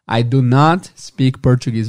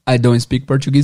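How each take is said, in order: First: The negation is said as two separate words. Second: The negation is contracted into one short word. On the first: The speaker is being more emphatic. "é porque eles estão sendo um pouco mais enfáticos" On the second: It is a plain statement. "eu poderia falar I don't speak Portuguese? Poderia"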